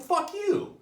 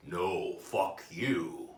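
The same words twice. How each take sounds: First: High, loud comic outburst; angry retort. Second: Very slow, drawn-out retort; deliberate comeback. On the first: Patient angry at his therapist, high angry retort. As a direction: fire it back in squeaky indignation. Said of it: "That kinda gets me angry". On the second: Therapist turning it back on his patient, deliberate comeback. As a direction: stretch each word out with authority. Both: Acted.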